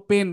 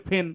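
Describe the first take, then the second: First: পেন with a plain unaspirated p; পেন starting on hard প; wrong pronunciation. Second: ফেন with an aspirated p; ফেন starting on breathy ফ; correct pronunciation. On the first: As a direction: say পেন with no puff of air after the p. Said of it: "তুমি ভুল উচ্চারণ করছো". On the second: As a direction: puff of air after the p in ফেন. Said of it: "আসল উচ্চারণ হচ্ছে". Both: Shown as a demonstration.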